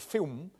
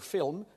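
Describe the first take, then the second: First: The L sounds like a vowel. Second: The L is pronounced as a consonant.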